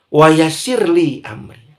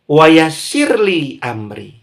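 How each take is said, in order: Both takes have the same delivery.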